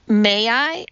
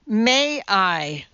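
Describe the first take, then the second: First: Higher, lightly voiced little girl; child's question. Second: Restrained thundering correction; firm teacher, only mildly raised; thundered. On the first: Madeline repeats corrected request, child asking. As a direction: politely ask permission as a pupil. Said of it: "asked Madeline". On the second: Teacher corrects Madeline's grammar, thundering. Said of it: "thundered Missus Mudford". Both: A narrator's reading.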